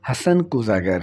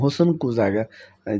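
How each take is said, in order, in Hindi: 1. पहला शब्द 'hasan' की तरह बोला जाता है। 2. पहला शब्द 'husn' की तरह बोला जाता है। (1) "ये नहीं है, हसन कूज़ागर है" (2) "बाज़ बल्कि अक्सर लोग कहते हैं"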